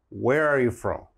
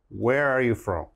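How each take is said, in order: The two takes are said the same way.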